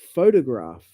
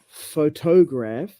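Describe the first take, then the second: First: The stress is on the first syllable. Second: The stress is not on the first syllable. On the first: The speaker calls it right. "It's on the first syllable" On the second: The speaker calls it wrong. "It's not photograph"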